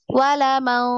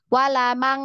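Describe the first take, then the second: First: The nasal sound is blurred and hidden, barely heard. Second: The nasal ng sound is pronounced clearly and fully. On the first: The speaker calls it right. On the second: The speaker calls it wrong. "masih N G"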